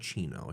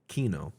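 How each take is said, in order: First: The syllable starts with a ch sound. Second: The syllable starts with a k sound. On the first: The speaker calls it wrong. "not Chino. She's not a cappuccino" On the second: The speaker calls it right. "K? Kino. Got it"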